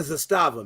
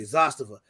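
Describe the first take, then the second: First: "Zastava" as zuh-STAH-vuh; wrong pronunciation. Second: "Zastava" as ZAHS-tuh-vuh, low; corrected pronunciation. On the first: Host scolds the others for the mistake, middle stress on "Zastava". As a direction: put the weight on the middle of "Zastava". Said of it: "y'all gotta stop saying". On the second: Host wraps up the pronunciation lesson, first-syllable stress on "Zastava". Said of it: "We got that out the way". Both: Shown as a demonstration.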